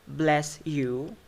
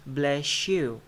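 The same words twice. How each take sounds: First: "bless you" as two separate words, clean s; careful word-by-word "bless you"; unlinked BLESS YOU. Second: "bless you" run together as "bleshyou"; linked "bless you" with a sh in the middle; assimilated BLESS YOU. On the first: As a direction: keep the s in "bless" apart from "you". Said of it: "becomes bless you". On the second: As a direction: turn the s of "bless" into sh before "you". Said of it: "So the s becomes sh". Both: Shown as a demonstration.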